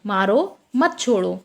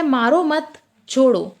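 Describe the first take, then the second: First: मारो alone, break, then मत छोड़ो together; pause after मारो. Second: मारो मत run together, break, then छोड़ो; group मत with मारो and pause before छोड़ो; pause after मत. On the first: Teacher's second example of meaning change, pause after मारो. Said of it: "और दूसरा है मारो". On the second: Teacher's first example of meaning change, pause after मत. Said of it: "पहला हमारा उदाहरण है". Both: Shown as a demonstration.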